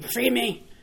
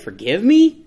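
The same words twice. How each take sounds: First: The voice falls at the end. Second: The voice rises at the end, like a question.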